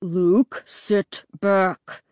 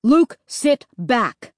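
First: Growling. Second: Slow, strained plea from a dad; pleading. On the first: Dad has had enough of son, growling. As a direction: growl each word at the kid. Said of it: "Dad growled". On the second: Dad asks son to let go, pleading. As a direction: drag it out, wearily pleading. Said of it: "Dad pleaded". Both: A narrator's reading.

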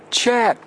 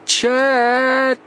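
First: Calling out. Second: High, long, loud yell; yelling together. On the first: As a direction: call through cupped hands. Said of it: "cried Joe, making a trumpet of his hands". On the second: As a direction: yell with all your breath. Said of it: "both boys yelled together". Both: Acted.

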